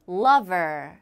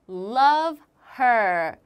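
First: The two words run together with no h. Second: The two words are said separately. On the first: "연결이 되면 lover 이렇게 연결이 돼요" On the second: "이 두 단어가"

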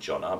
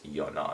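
First: The name begins with a J sound. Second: The name begins with a Y sound. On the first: The speaker calls it wrong. "I would automatically go to say like Jonna" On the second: The speaker calls it right. "but it's Yona, I'm pretty sure"

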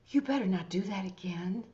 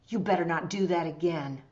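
First: It sounds warm, concerned and caring. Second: It sounds angry and sternly warning. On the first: The speaker cares about a friend heading for trouble. "I'm talking to a friend that's about to get themselves into trouble and I really care about them" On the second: The speaker really wants to warn them. "I'm angry because, I mean, I really want to warn them"

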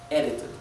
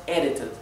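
No difference in how they are said.

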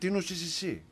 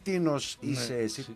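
First: The words are run together as one word. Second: The words are said as separate words. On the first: The speaker calls it right. "Μία λέξη" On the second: The speaker calls it wrong. "Όχι"

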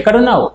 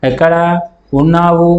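First: The two words are merged into one. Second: The two words are said separately. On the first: The speaker calls it right. "ఎక్కడున్నావు అంటాం. రెండు పదాలు కలుపుతున్నాం" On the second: The speaker calls it wrong. "ఎక్కడ ఉన్నావు అనం"

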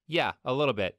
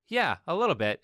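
First: The tone sounds flat and unimpressed. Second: The tone sounds warm and positive. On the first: The speaker is not impressed. "You can tell she's not impressed by the tone of her voice" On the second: The speaker is impressed. "Versus something more positive like"

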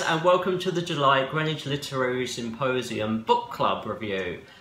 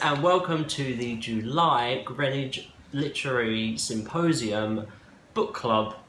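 First: The name is said smoothly and fluidly. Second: The name is said haltingly, not smoothly.

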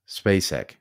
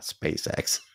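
First: The name ends with a plain k sound. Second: The name ends with a ks sound. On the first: It is the actress's surname. The speaker calls it right. "SpaceX, not SpaceX. She's not flying to the moon" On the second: It is the rocket company's name. The speaker calls it wrong. "not SpaceX. She's not flying to the moon"

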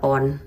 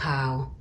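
First: The vowel is a plain 'o', like 'pon'. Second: The vowel is a diphthong, like 'paun'. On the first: This is how it is commonly called locally. "ถ้าเรียกกันเป็นปอนด์" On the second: This is how Americans say it. "เวลาคนอเมริกันเขาออกเสียงเขาจะออกเป็นพาวมากกว่า"

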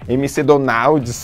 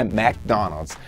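First: It is said with a Brazilian Portuguese pronunciation. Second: It is said with an English pronunciation. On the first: The speaker calls it wrong. "Não vai me falar Mac, ... Não vai falar isso lá fora. Aqui no Brasil você pode falar" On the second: The speaker calls it right. "a pronúncia de McDonald's é isso aí"

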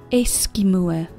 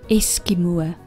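Both takes have the same delivery.

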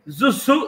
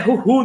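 First: The name begins with a buzzing z sound. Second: The name begins with a raspy h sound. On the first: The speaker calls it wrong. "Zuzu não" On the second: The speaker calls it right. "Se é castelhano, é Ruhu"

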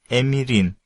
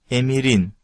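Both takes have the same delivery.

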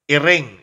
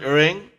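First: The vowels sound like i. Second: The vowels sound like e. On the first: The speaker calls it right. "I should be used instead of E in all native words" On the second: The speaker calls it wrong. "It's not iring"

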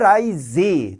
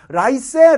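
First: The middle consonant is a voiced z sound. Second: The middle consonant is a voiceless s sound. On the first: The speaker calls it right. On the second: The speaker calls it wrong.

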